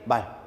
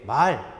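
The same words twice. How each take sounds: First: The vowel is said short. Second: The vowel is held long. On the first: It means a horse or a unit of measure. "짧게" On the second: It means speech or words. "길게"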